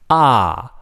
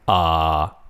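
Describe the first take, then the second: First: The pitch falls sharply from high to low. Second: The pitch stays low and level. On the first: "the fourth one is a falling tone" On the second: "Third one is low flat"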